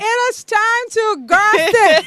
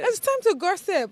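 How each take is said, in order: First: It is said loudly. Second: It is said at normal volume.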